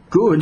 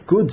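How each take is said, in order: First: "Good?" howled much higher and louder; an outraged, disbelieving cry of "Good?"; the snake howling back in protest. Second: Said in the usual way. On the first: A narrator's reading. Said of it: "howled the snake". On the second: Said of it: "said the rabbi".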